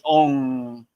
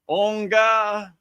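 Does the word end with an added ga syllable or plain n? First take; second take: plain n; ga syllable. First: The word ends cleanly on an n sound. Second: The word ends with an extra ga syllable. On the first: The speaker calls it right. "it's on with the N" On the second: The speaker calls it wrong. "It just don't sound right"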